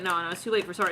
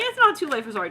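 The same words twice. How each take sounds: First: Low, quick acted brush-off; dismissive refusal. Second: Higher, insistent acted objection; protesting plea. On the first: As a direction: turn down the apology, pitched low. Refusal set against the plea. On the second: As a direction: push back against the refusal, pitched up. Plea answering the refusal.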